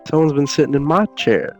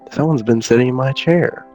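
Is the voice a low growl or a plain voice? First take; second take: plain; low growl. First: It is said plainly in a Mama Tiger voice. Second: It is growled in a Papa Tiger voice.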